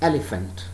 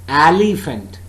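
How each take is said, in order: First: The stress is on the first syllable. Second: The stress is not on the first syllable. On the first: The speaker calls it right. "The first syllable is stressed" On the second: The speaker calls it wrong. "It's not elephant"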